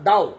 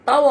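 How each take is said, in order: First: The word begins with a soft d sound. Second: The word begins with a hard t sound. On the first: "ಆ ಚೈನರ ಉಚ್ಚಾರ ದಾವ್" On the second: "ಇಂಗ್ಲಿಷ್ನಲ್ಲಿ"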